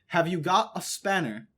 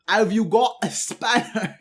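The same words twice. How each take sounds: First: It is read in a normal, non-British accent. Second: It is read in a put-on British accent.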